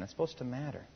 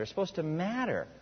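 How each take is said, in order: First: Said again much softer, almost to himself; hushed earnest echo; quiet repeat. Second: Said in the usual way. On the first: Shown as a demonstration. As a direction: let it sink in, softly. Preacher repeats line softly for emphasis.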